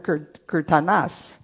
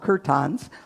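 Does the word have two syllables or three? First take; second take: three; two. First: The word is said with three syllables. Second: The word is said with two syllables. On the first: The speaker calls it right. "but they're kirtanas" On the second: The speaker calls it wrong. "I always call them kirtans"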